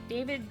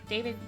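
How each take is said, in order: No difference in how they are said.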